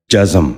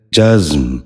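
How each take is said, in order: First: جزم said "ja-zam", in two syllables; a vowel between z and m in جزم; wrong pronunciation. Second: جزم said "jazm", no vowel between z and m; z held straight into the m of جزم; correct pronunciation. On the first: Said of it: "یہ غلط تلفظ ہے". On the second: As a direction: say جزم as one syllable, "jazm". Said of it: "درست تلفظ ہے". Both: Shown as a demonstration.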